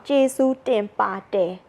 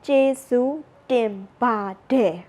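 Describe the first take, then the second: First: "Jesu Tenpa De" with an unvoiced t as written; spell-it-out "Jesu Tenpa De" with a crisp t; "Jesu Tenpa De" read as written, unvoiced t; written form. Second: "Jesu Tenpa De" slowly, voiced d as in speech; slow, careful "Jesu Tenpa De" the way it is spoken; spoken form. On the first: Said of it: "when we have to write it down". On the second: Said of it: "but when we speak". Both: Shown as a demonstration.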